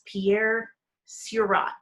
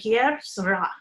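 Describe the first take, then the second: First: The name is read with English spelling sounds. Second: The name is said with non-English sounds. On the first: The speaker calls it wrong. "if I was pronouncing it English" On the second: The speaker calls it right. "But it's pronounced"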